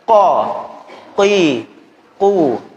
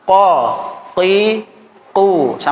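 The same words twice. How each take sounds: Both takes have the same delivery.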